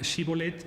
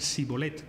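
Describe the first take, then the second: First: The word begins with a 'sh' sound. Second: The word begins with an 's' sound. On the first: This is how the winning tribe said it. The speaker calls it right. "Los de Galad pues, decían shibboleth" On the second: This is how the defeated tribe said it. The speaker calls it wrong. "decían shibboleth con, con S"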